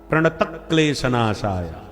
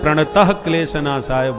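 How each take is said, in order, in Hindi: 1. 'pranata' के बाद कोई फुसफुसाती h ध्वनि नहीं आती। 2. 'pranata' के बाद एक फुसफुसाती h ध्वनि आती है। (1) "बिना विसर्ग के" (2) "प्रणतः में विसर्ग लगा देते हैं, ये विसर्ग नहीं"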